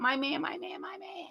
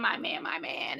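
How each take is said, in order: First: High, soft, cooing swoon. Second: Breathy whisper, lovesick; whispered swoon. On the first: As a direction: coo it like a smitten girlfriend. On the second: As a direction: sigh the words out in a whisper. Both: Retold or imitated. Mimicking a lovesick woman.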